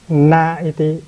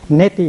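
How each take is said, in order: First: The a and i are said as separate vowels. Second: The a and i merge into one e sound. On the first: "thường thường người ta dùng cái chữ na iti" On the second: "chữ a và chữ i nó gặp nhau nó thành ra chữ e"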